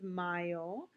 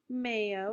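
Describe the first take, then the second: First: The first syllable sounds like English 'my'. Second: The first syllable sounds like English 'may'. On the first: The speaker calls it right. "the A Y is an I, so it's mayo" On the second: The speaker calls it wrong. "This is not mayo"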